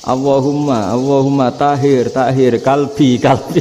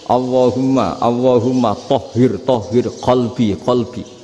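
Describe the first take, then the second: First: The last word starts with a plain k. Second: The last word starts with a deep throaty q. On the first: The prayer sounds like it mentions a dog. The speaker calls it wrong. "nggak fasih kayak orang Indonesia" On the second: The prayer asks for the heart to be purified. The speaker calls it right. "Orang Indonesia kalau dongo"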